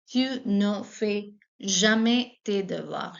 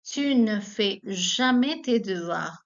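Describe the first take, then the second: First: Slow, clear repeat; teacher repeating the negative sentence. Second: Slow, clear French example; teacher modelling a negative sentence; slow model. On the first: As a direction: repeat it slowly. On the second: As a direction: read slowly for learners. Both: Shown as a demonstration. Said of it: "For example".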